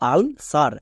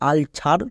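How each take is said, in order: First: The second syllable starts with an s sound. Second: The second syllable starts with a ch sound. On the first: The speaker calls it right. "কিন্তু এর উচ্চারণ দাঁড়াবে আলসার" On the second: The speaker calls it wrong. "অনেকে ভুল করে উচ্চারণ করে আলছার"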